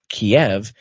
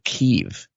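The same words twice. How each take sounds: First: The name is said in its Russian form. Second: The name is said in a non-Russian form. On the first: The name keeps its Russian origin. "Instead of saying Kiev" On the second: The Russian origin is removed from the name. "now you have to cancel the Russian in the name, so you have to call it Kiev"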